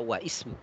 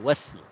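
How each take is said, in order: First: The i of ismu is pronounced separately. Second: The i is dropped, linking wa to smu. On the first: The speaker calls it wrong. "tidak boleh dibaca wa ismu" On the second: The speaker calls it right. "tapi wasmu"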